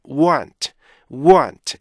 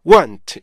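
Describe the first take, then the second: First: "want" said level and steady; even stress. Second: "want" punched then dropped; the wrong strong-weak way on "want"; strong-weak stress. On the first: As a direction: keep "want" even, no punch. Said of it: "이렇게 읽어야지". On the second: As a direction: demo of what not to do. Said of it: "이렇게 강약으로 가시면 안 돼요". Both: Shown as a demonstration.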